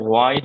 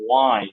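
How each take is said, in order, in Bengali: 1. শব্দটি একটি শ্বাসযুক্ত h ধ্বনি দিয়ে শুরু হয়। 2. শব্দটি একটি সাধারণ w ধ্বনি দিয়ে শুরু হয়। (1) "এটা ওয়াই হবে না" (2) "এইগুলোতে এইচ টা থাকবে না"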